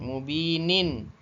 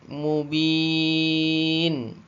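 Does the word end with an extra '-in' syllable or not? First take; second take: yes; no. First: The word ends with an added in syllable. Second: The word ends on a plain n sound. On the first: The recitation continues without stopping. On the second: The reciter stops on this word.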